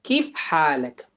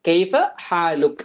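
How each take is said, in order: First: It is said in Saudi/Emirati dialect: keef haalak. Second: It is said in Standard Arabic: kaifa haaluk.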